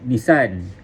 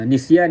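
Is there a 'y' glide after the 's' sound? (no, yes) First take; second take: no; yes. First: A plain s with no y glide. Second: The s is followed by a y glide. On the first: The speaker calls it wrong. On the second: The speaker calls it right.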